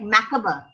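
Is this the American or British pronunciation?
British. It is said with a British pronunciation. "we should stick to the British old British English"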